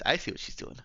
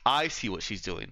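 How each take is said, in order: First: It is said strongly in Eva's character voice. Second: It is said with much less of Eva's voice.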